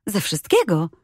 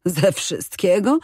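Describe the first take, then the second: First: Said in the usual way. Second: Slow rising disbelieving repeat; can't believe what she heard; incredulous echo. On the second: A narrator's reading. Invalid echoes in disbelief.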